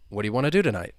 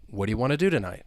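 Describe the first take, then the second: First: The words are reduced and run together. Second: The words are reduced and run together.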